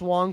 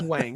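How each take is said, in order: First: The vowel sounds like the one in 'song'. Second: The vowel sounds like the one in 'bang'. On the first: This is believed to be the correct pronunciation. The speaker calls it right. "I think it's pronounced Wong" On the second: This is how the name is spelled. The speaker calls it wrong. "I don't think it's Wang"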